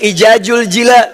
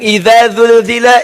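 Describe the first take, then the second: First: Every consonant is pronounced as a j sound. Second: It uses distinct dh and z consonant sounds. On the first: "ada yang ijajul jila" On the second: "ada yang idza zulzila"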